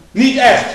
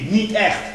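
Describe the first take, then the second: First: Louder and higher, both words punched; emphatic repeat. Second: Said in the usual way. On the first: Real, not acted. Preacher denying real persecution, loud emphatic repeat. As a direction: slam it down the second time.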